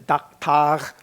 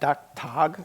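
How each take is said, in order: First: The word is said with Klingon-style sounds. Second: The word is said with English-like sounds. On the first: The word is adapted to Klingon rules. "So I Klingonized it to daktag" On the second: The writers' made-up pronunciation. "pronounced daktag, I guess"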